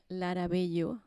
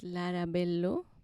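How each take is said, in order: First: The name is pronounced with Spanish sounds. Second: The name is pronounced with English sounds.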